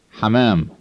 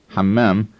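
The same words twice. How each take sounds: First: Hammam with only one short M; single M. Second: Hammam with a doubled, held M; double M. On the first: Instructor giving the Arabic word for pigeon, single M in hammam. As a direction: say hammam as ha-maam, the M not doubled. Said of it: "with only one M in the middle". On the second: Instructor warning learners about restroom versus pigeon, double M in hammam. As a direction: hold the middle M of hammam, ham-maam. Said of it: "stress the double M in the middle". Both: Shown as a demonstration.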